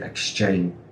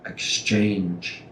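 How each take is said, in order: First: The word stops at the N sound. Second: The word ends with a clear J sound. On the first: The speaker calls it wrong. "they stop with that N" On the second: The speaker calls it right. "Please do not miss that G, J"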